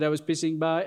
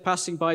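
First: "passing" said as "pissing"; mangled comic pronunciation. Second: Said in the usual way. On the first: Retold or imitated. Mimicking a sitcom character's bad English, "passing" mangled to "pissing". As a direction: turn the first vowel of "passing" into a short "i". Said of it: "he said". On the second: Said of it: "Instead of saying".

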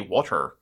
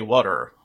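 First: Water with the t sounded; crisp-t water. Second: Water the New York way, t softened. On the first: Host contrasting with New York speech, "water" fully pronounced. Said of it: "especially people in New York, don't say". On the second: Host showing how New Yorkers say it, "water" in New York style. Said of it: "They say water". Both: Shown as a demonstration.

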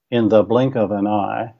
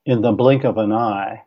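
First: Da-da-DUM meter, second pass; anapest rhythm again. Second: Da-da-DUM beat on blink and eye; anapest rhythm. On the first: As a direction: stress on blink and eye, in the blink of an eye with a lift on the. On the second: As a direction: stress on blink, in the blink of an EYE, light syllables rushed. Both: Shown as a demonstration. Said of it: "a good example of that meter would be".

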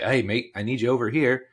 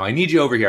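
First: Put-on light, uncertain Australian accent; attempted Australian accent. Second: Said in the usual way. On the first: English soccer organiser calling a player over, shaky attempt at Australian accent. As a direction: have a half-hearted go at an Australian accent. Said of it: "was that an Australian accent". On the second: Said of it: "he says, you know".

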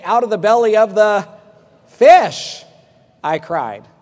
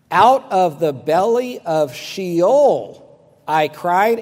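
First: "fish" punched much higher and louder; stress on fish. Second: Slow and loud, leaning on Sheol; slow stressed quote. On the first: Pretend. Preacher mocking what people expect Jonah to say, shouting "fish". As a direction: build up and belt out the word "fish", then drop back. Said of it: "You expect him to say". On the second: Retold or imitated. Preacher reading Jonah's cry to the congregation, slow and emphatic. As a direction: read "Out of the belly of Sheol" slowly, weight on "Sheol". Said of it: "Jonah said".

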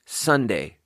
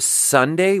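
First: Gentler, less sharp S on "Sunday"; softened S. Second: Hard hissy S on "Sunday"; sharp S. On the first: Narrator showing the correct S, softened. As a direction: ease the tongue up a little for the S in "Sunday". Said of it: "you have to say". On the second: Narrator showing the S to avoid, sharp S. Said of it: "which is very sharp". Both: Shown as a demonstration.

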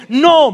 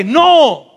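First: Firm no. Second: Louder no. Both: Shown as a demonstration. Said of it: "más fuerte".

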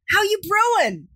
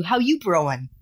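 First: Very high, hammed-up New York accent. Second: Casual, understated New York greeting; light New York accent. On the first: Host retries the pun on guest, exaggerated New York accent. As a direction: lay the New York accent on thick for a retake. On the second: Acted. Host tries a coffee pun on a Brooklyn guest, light New York accent. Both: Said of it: "my New York accent finely tuned".

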